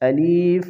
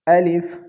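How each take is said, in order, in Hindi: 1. बीच का स्वर लंबा खींचा जाता है। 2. बीच का स्वर छोटा और जल्दी वाला है। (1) "अलिफ में या की इजाफा कर देते हैं" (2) "जल्दी के साथ पढ़ें"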